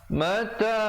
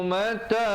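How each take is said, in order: No difference in how they are said.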